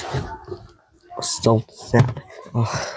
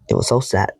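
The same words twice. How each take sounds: First: Slow, sorrowful whisper, barely voiced; sad whisper. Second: Said in the usual way. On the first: Real, not acted. Telling viewers about the lost texts, slow sad whisper. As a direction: let it sink out as a slow whisper. Sad recap of fading friendship.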